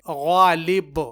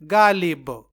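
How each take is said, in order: First: It starts with a thick throaty gh sound. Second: It starts with a soft thin g sound. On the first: The speaker calls it right. "ये गैन से गालिब है" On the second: The speaker calls it wrong. "ना के"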